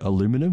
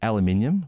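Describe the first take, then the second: First: It is said with the American pronunciation. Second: It is said with the British pronunciation. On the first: "I think they say aluminum" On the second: "I just want to point out that I said aluminium"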